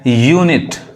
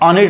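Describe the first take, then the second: First: It begins with a 'yoo' sound. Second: It begins with an 'uh' sound. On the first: The speaker calls it right. "यहाँ पे जो यू है वो यू ही पढ़ा रहा है" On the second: The speaker calls it wrong. "अनिट नहीं पढ़ा रहा है"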